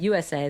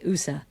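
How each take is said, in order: First: The letters are spoken with English letter names. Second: The letters are spoken with Italian letter names. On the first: "instead of saying U S A" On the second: "the Italians, as you know, in Europe, ... they say U S A"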